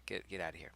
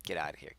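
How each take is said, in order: First: Whispered get outta here, softer; hushed shooing whisper. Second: Said in the usual way. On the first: Acted. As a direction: hiss the line under your breath. Voicing a character shooing dog.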